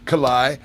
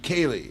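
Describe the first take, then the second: First: The name ends with a 'lie' sound. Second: The name ends with a 'lee' sound. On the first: The speaker calls it wrong. "That's not a name" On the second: The speaker calls it right. "Kaylee is the correct way to say it"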